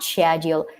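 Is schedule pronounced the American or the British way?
British. The word is pronounced the British way. "not schedule"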